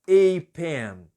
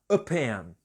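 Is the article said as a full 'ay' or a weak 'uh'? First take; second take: full 'ay'; weak 'uh'. First: The article is said as a full 'ay'. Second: The article is said as a weak 'uh'. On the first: "a pronúncia dela é ei... Então eu não vou falar a pen" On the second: "na frase a pronúncia fica a... Eu vou falar a pen"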